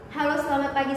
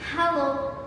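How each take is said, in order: First: The greeting has flat, unvaried intonation. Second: The greeting has lively, varied intonation. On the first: The message is harder to understand. The speaker calls it wrong. "Jika kita mengucapkannya tidak seperti itu" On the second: The message is easy to understand. The speaker calls it right. "Penggunaan intonasi akan memberikan nada yang tepat terhadap setiap kata"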